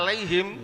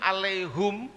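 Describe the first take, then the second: First: The last syllable is said with an i vowel. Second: The last syllable is said with an u vowel. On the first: It is the usual familiar reading of the verse. "udah biasa" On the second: It is a different accepted reading of the verse. "kalau di luar sana kita mendengar"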